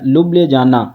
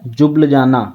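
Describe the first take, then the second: First: The word begins with an L sound. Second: The word begins with a J sound. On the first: "जे साइलेंट करके पढ़ोगे" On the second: "एल silent करके जब पढ़ोगे"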